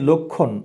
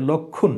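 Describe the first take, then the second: First: Said in the usual way. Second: "লক্ষণ" as lok-khun, u in the second syllable; teacher's model "লক্ষণ", rounded into lok-khun; closed-vowel pronunciation. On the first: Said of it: "ঠিক একই লক্ষণ". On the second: Shown as a demonstration. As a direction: say "লক্ষণ" with k plus kh and a dental n. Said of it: "এমনটা হবে".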